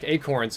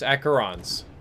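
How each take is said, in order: First: The name is said like the word acorns. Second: The name is said with an extra middle syllable. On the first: The speaker calls it wrong. "it's not acorns like acorns" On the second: The speaker calls it right. "It's acherons"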